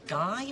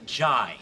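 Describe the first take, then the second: First: It begins with a hard G sound. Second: It begins with a soft J sound. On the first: "do you mean the guy" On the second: "or the jai?"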